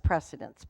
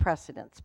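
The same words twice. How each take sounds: First: The word gets its common, everyday pronunciation. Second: The word gets its common, everyday pronunciation.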